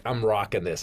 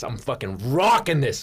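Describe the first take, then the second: First: Said in the usual way. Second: "rocking" punched and swooping up; emphatic swagger. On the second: Retold or imitated. New boyfriend proud of backstage passes, "rocking" stressed with swagger. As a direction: lean hard on "rocking".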